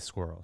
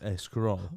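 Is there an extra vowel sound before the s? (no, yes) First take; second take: no; yes. First: The word starts directly with the s sound. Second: An extra e vowel comes before the s. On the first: The speaker calls it right. "she can't say squirrel" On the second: The speaker calls it wrong. "She says a squirrel. Like they always have to add the es in front"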